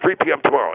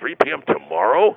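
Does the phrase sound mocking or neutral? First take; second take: neutral; mocking. First: It is said in a plain, neutral tone. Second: It is said in a mocking, questioning tone. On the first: A simple request for a time. "I said originally" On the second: The listener is treated as foolish. "it's got this tone like, are you an idiot or something?"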